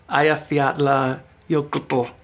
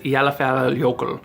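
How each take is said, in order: First: The double L is said as a TL sound. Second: The double L is said as plain L. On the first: The speaker calls it right. "because it's that double L" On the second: The speaker calls it wrong. "I always thought the famous volcano that exploded a couple years back was"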